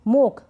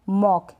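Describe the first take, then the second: First: The vowel is a closed 'oh' sound. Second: The vowel is an open 'aw' sound. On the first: The speaker calls it wrong. "गलत उच्चारण हो जाएगा" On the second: The speaker calls it right. "इसको पढ़ेंगे"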